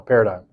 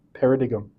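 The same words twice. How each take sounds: First: Said in the usual way. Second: "paradigm" said as para-dig-um; mispronounced paradigm. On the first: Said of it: "no, paradigm". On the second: Shown as a demonstration. Lecturer slipping into the AI voice's error, mispronounced "paradigm". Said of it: "mispronounces things like paradigm".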